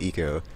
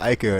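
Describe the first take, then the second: First: It begins with an 'ee' sound. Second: It begins with an 'eye' sound. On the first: This is the speaker's own pronunciation. "I call it Eco" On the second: This is how other people pronounce it. "other people that call it Ico"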